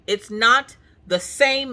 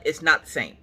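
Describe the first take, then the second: First: "not" stretched out slow, higher and louder; insisting, every word spelled out; emphatic repeat. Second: Said in the usual way. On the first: Shown as a demonstration. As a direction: lean hard on "not" and drag the words.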